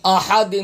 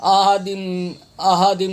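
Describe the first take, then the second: First: "احد" with a strong pharyngeal h; correct throat h. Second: "احد" with a weak h, almost an empty glottal sound; wrong h. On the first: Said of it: "ہا زبر ہا". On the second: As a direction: say "احد" as a-adim, without the throat h. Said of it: "تلفظ غلط پڑھتے ہیں". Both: Shown as a demonstration.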